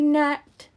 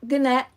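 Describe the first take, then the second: First: The word starts with an N sound. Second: A hard G sound starts the word. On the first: The speaker calls it right. "The G is silent" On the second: The speaker calls it wrong. "It's not gnat"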